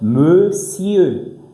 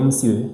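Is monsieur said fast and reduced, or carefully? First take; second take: careful; fast. First: It is said slowly with every sound clear. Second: It is said quickly with reduced sounds. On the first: This is the standard careful form. "Mais sinon" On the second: This is casual everyday speech. "Quand vous allez parler rapidement"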